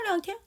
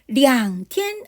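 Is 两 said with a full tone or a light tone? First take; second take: light; full. First: 两 is said lightly, like a neutral tone. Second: 两 is said with a full, strong tone. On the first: A few days. The speaker calls it right. "약간 량을 되게 경성처럼 말해요" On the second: Exactly two days. The speaker calls it wrong. "两天 하지 않았죠"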